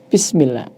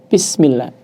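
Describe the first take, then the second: The two takes are said the same way.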